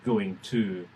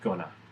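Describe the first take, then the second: First: Both words are said fully and separately. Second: The words merge into one reduced form. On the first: ""going to" was assimilating" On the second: "assimilating into "gonna,""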